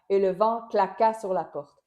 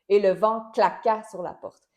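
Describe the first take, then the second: Both takes have the same delivery.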